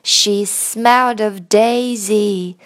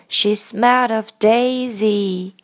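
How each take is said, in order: The two takes are said the same way.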